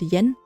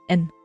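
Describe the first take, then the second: First: The word begins with a y sound. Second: The word begins directly with a vowel. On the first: The speaker calls it wrong. "we tend to call it yen" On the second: The speaker calls it right. "it is actually en, so without a y"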